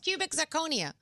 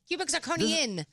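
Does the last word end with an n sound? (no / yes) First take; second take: no; yes. First: The last word ends in a vowel, no n. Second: The last word ends with an added n sound. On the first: The speaker calls it right. "No, it's cubic zirconia" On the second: The speaker calls it wrong. "What did I say? ... There's no N? No"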